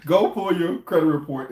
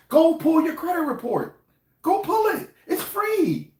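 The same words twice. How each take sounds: First: Said in the usual way. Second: Squeaky falsetto, much higher and slower; high-pitched voice. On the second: Real, not acted. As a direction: urge them in a sudden squeaky high voice. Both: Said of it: "I didn't mean to have the high-pitched black voice".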